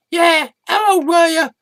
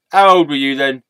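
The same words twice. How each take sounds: First: Very high, prying question; nosy squeaky echo. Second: Said in the usual way. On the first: Acted. Sidekick echoes the interviewer's question, high-pitched and nosy.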